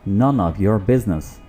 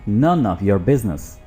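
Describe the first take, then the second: The two takes are said the same way.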